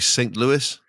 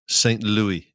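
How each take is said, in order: First: It is said the American way. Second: It is said the English way.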